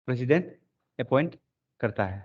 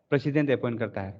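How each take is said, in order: First: president, pause, appoint, pause, करता है, each word set apart; word-by-word dictation. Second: Said in the usual way. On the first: Shown as a demonstration. Teacher repeats the phrase for dictation. (President… appoint… करता है, रुक-रुक कर बोलें)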